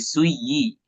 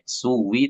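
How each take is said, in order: First: The middle consonant is a y sound. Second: The middle consonant is a w sound. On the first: The speaker calls it right. "tapi suyi" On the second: The speaker calls it wrong. "bukan pakai W"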